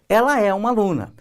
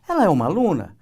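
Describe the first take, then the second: First: It is said with statement intonation. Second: It is said with question intonation. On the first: It asserts that she is a student. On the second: It asks whether she is a student.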